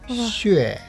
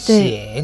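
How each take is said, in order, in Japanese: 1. xue と読み、下降調です。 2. xie と読み、降昇調です。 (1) "XUE の四世ですね" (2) "XIE の四世、三世ですね"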